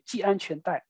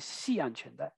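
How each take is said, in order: First: The first syllable begins with a 'j' sound. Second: The first syllable begins with an 'x' sound. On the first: This is the reading many people avoid. "many people do not say ji anquan dai" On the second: This is the reading many people use. "they will say xi anquan dai"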